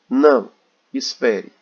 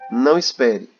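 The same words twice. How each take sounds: First: There is a pause between the two words. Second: The two words run together without a pause. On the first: It asks the listener to wait. "Tem uma vírgula, então a gente dá uma pausa" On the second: It tells the listener not to wait. "Aqui não tem vírgula, então não tem pausa"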